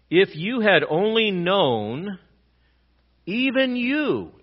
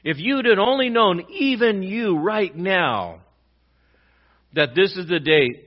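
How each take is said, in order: First: Slow, high and louder, stretching "even you"; Jesus lamenting over the city, emphatic. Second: Loud, high, slow, leaning on "even you right now"; restating the lament with more force; emphatic repeat. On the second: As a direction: drive home each word. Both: Retold or imitated. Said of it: "it's in the emphatic tense".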